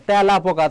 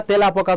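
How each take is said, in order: First: তেলাপোকা as "tyæ-lapoka", with an open "æ"; open-æ pronunciation. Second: তেলাপোকা as "te-lapoka", with a close "e"; close-e pronunciation. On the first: Teacher showing how we really say it, open-æ pronunciation. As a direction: open the first vowel of তেলাপোকা to "æ". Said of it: "অ্যা হয়ে যাচ্ছে". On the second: Teacher showing what we do not say, spelling pronunciation. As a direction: keep the first vowel of তেলাপোকা a written "e". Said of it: "তো বলি না". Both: Shown as a demonstration.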